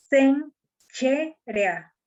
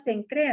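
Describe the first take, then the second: First: "Sencherea" drawn out very slowly as sen-che-re-a, ch not cr; corrected pronunciation. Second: Said in the usual way. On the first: Shown as a demonstration. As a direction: stretch "Sencherea" syllable by syllable, ch sound in the middle. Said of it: "Pero se pronuncia". ("Sencherea" muy despacio, con ch, sen-che-re-a) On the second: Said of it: "Y nosotros decimos".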